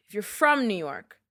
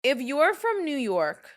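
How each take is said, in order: First: Said in the usual way. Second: "if you're from New York" drawn out slowly and higher, leaning on "from"; a New Yorker laying down the rule to listeners, slow and pointed; slow stressed take. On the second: Shown as a demonstration. A New Yorker speaking to outsiders, slow and emphatic. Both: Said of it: "As a fellow New Yorker".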